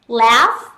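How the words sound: It is said in an American accent. "Laugh là tiếng Anh Mỹ"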